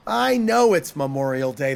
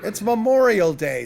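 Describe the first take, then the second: First: Exasperated, lower-pitched retort; understated shout, pitched down; mild narrated shout. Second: Said in the usual way. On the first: A narrator's reading. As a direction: lean on KNOW with contained irritation. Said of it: "the devil shouted". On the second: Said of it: "said the horse".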